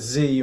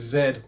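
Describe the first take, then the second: First: The letter is said the American way, zee. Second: The letter is said the British way, zed.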